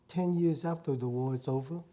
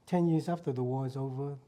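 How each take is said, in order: Both takes have the same delivery.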